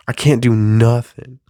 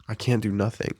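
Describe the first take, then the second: First: A louder first take of I can't do nothing; louder complaint. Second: A much softer, resigned echo of I can't do nothing; quieter repeat. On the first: Comedian venting that he can't do anything, louder. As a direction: say it out loud, fed up. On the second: Comedian repeating his complaint to himself, much softer. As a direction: drop it to a quiet aside. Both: Real, not acted.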